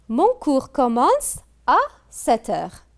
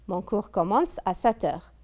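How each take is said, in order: First: Higher, louder read of the sentence; announcing the example. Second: Said in the usual way. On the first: Shown as a demonstration. Teacher announcing exercise sentence to pupils, raised and louder. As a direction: present the sentence to the whole class.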